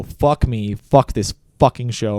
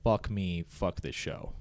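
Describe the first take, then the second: First: Louder, forceful whisper-yell curse. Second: Low, hushed curse under the breath; muttered under breath. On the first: Angry cameraman cursing on live air, whisper-yelling. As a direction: hiss it so hard it carries. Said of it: "I was actually whisper yelling". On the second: Cameraman cursing under breath as broadcast goes live, hushed. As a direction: mutter it so nobody hears. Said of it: "I whisper underneath my breath". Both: Retold or imitated.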